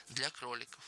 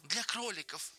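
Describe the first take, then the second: First: Soft, restrained repetition; subdued echo. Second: High, eager interjection; childlike high-pitched enthusiasm; eager chiming in. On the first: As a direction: repeat it quietly, without enthusiasm. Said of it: "повторил Джордж". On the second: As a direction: cut in eagerly, pitch lifted. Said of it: "подхватил Ленни". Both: A narrator's reading.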